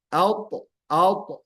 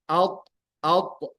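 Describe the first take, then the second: Both takes have the same delivery.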